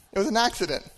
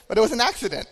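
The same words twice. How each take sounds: First: Said in the usual way. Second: Quick, laughing, raised pitch; sheepish chuckle as he owns up; laughing admission. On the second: Real, not acted. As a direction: laugh it out fast and high.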